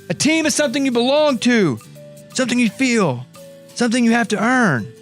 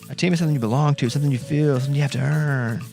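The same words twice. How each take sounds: First: It is said in an imitated character voice. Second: It is said in the speaker's natural voice.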